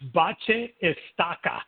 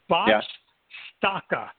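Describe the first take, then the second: First: It is said with a Brazilian Portuguese accent. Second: It is said with a European Portuguese accent.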